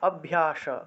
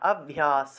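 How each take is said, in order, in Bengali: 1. শেষের ধ্বনিটি একটি তালব্য 'sh'। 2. শেষের ধ্বনিটি একটি দন্ত্য 's'। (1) "যদি তালবস্য থাকতো তাহলে স উচ্চারণ হতো" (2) "আমরা দন্তস্ব আছে বিধায় স উচ্চারণ করব"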